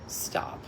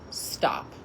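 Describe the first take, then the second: First: It is said at normal loudness. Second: It is said louder.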